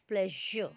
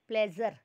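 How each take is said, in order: First: The middle consonant is a soft zh sound. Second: The middle consonant is a buzzing z sound. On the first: The speaker calls it right. "It is प्लेजर" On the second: The speaker calls it wrong. "Urdu वाला प्लेजर"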